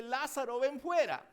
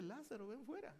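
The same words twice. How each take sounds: First: Loud, higher call of the name, then a strong command. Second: Softer, gentler "Lázaro, ven fuera"; soft repeat. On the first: Jesus calling Lazarus out of the tomb, loud command. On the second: Jesus calling Lazarus again, softly and calm. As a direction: say it again quietly, almost to himself. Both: Retold or imitated.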